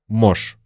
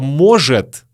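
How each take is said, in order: First: The word is shortened to a single syllable. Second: The word is said fully with both syllables. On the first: "часто произносим просто как мож" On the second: "слово может"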